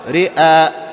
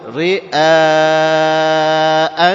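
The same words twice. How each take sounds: First: The final long vowel is held short. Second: The final long vowel is held long. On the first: The speaker calls it wrong. "فلا نقول رئاء خطأ" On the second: The speaker calls it right. "بل نقول رئاء الناس"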